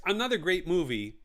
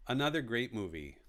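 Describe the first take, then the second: First: Said in the usual way. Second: Lower, softer repeat; soft echo. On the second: Shown as a demonstration. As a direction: echo it to yourself quietly. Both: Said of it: "repeats phrase softer".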